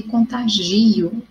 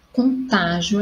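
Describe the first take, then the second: First: Contagio slowed, with GI stretched and strong; stress on GI. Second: Contágio slowed, with TÁ as the strong syllable; stress on TÁ. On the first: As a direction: lean hard on GI in contagio. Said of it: "e contagio é outra". (contagio com tônica no GI) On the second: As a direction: lean on TÁ in contágio. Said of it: "mudança de posição da sílaba tônica". (contágio com tônica no TÁ) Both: Shown as a demonstration.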